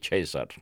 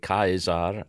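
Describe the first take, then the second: First: The word is pronounced in the Italian way. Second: The word is pronounced in the German way. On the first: This is how Italians say it. "we say Caesar" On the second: This is how Germans say it. "they say Caesar"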